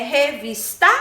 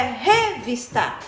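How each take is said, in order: First: "revista" wrongly stressed on final TA; misplaced stress. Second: "revista" wrongly stressed on first RE; misplaced stress. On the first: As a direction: say "revista" as re-vis-TÁ, questioning. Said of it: "ou é revista?". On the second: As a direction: say "revista" as RÉ-vis-ta, questioning. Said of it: "qual é a sílaba tônica". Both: Shown as a demonstration.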